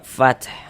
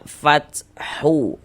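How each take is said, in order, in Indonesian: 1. Kata ini berakhir pada konsonan, tanpa vokal. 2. Kata ini diakhiri dengan bunyi vokal tambahan. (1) "Kita baca fath gitu. Huruf h kita sukunkan" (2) "Jangan dibaca fathu"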